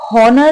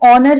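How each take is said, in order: First: The word begins with an h sound. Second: The word begins with a vowel sound. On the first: The speaker calls it wrong. "इसे आप हॉनर नहीं पढ़ेंगे" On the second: The speaker calls it right. "इसमें जो H होता है ना वो साइलेंट होता है"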